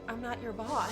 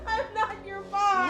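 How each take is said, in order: First: It is said quietly and flatly. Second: It is said loudly and forcefully.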